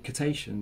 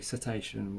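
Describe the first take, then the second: First: The first sound is a hard K sound. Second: The first sound is a soft S sound. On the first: The speaker calls it wrong. "we don't say cetacean" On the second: The speaker calls it right. "We say cetacean"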